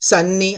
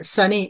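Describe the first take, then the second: First: The middle n sound is long and doubled. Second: The middle n sound is short and single. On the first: The speaker calls it wrong. "అంతేగాని ఫన్నీ, సన్నీ అనకూడదు" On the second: The speaker calls it right. "రెండు letters పలకకుండా ఒకటే పలకాలి"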